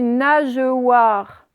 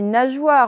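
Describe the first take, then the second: First: The E after the G is pronounced aloud. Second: The E after the G is not pronounced. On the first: The speaker calls it wrong. "Est-ce que je dis nageoire? Non" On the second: The speaker calls it right. "Le E, c'est comme s'il était muet"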